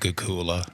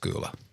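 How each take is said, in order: First: The name is said with three syllables. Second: The name is said with two syllables. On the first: The speaker calls it wrong. "I always said like Gugula" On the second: The speaker calls it right. "it's just it's just Gula"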